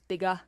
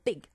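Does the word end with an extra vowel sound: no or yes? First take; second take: yes; no. First: An extra vowel sound follows the final g. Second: The word ends sharply on the final g. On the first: The speaker calls it wrong. "add the extra schwa or ah sound at the end of words" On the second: The speaker calls it right. "our mouth closes very quickly"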